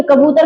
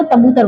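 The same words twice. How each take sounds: First: Said in the usual way. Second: तबूतर with T replacing the first K; child's lisp. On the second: Shown as a demonstration. Teacher has child try कबूतर, lisped तबूतर. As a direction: say तबूतर, fronting K to T. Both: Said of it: "कबूतर को कबूतर बुलवाइए".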